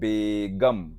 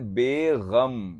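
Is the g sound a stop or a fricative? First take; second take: stop; fricative. First: The g is a plain stop sound. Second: The g is a throaty fricative sound. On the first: A wife. The speaker calls it right. "वो होता है बेगम" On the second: Free of sorrow. The speaker calls it wrong. "गा में कई लोग नुक्ता लगा देते हैं"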